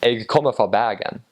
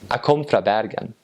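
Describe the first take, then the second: First: It is said in a Western Bergen dialect. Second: It is said in a Northern Norwegian dialect.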